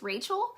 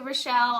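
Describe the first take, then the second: First: The name is said as RAY-chel. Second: The name is said as ro-SHELL. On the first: It is the intended pronunciation. "it's really pronounced as Rachel" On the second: It follows the unusual spelling. "I answer to Rochelle"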